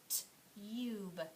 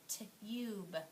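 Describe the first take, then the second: First: The vowel sounds like 'yoo', the letter name. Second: The same.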